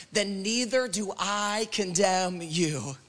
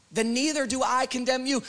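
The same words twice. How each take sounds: First: Lingering, measured delivery; slow, weighty quote. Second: Lifted, flowing repeat. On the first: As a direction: let each word land slowly. Weighty first reading of Jesus's words. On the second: Repeats the verse, lifting into preaching. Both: Acted.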